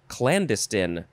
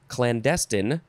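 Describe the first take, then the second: First: The stress is on the first syllable. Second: The stress is on the second syllable.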